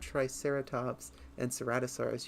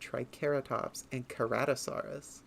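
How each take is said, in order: First: The C in cerato sounds like an S. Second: The C in cerato sounds like a K. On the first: The speaker calls it wrong. "you don't have" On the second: The speaker calls it right. "is pronounced with a K noise"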